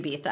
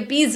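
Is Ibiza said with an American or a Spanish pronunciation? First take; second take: Spanish; American. First: It is said with a Spanish pronunciation. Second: It is said with an American pronunciation. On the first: The speaker calls it right. "I know that it should be Ibiza" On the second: The speaker calls it wrong. "we say Ibiza in the US"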